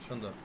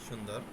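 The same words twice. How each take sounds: The two takes are said the same way.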